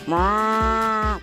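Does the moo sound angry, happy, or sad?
happy. A continuous, repeating moo sounding happy.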